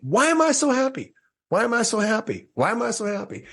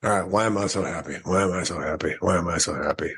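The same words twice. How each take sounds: First: Very high, sing-out mimicking of her; mock emphatic cheer. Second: Low, quick, unconvinced repeats; half-hearted recitation. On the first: Woman demonstrating her happiness question, mock emphatic cheer. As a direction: say it way up high like you really mean it. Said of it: "speak it out loud like you really mean it". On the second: Retold or imitated. Driving away trying her exercise, half-hearted. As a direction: mumble through it low, not meaning it. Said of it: "I say it three times, kinda like that".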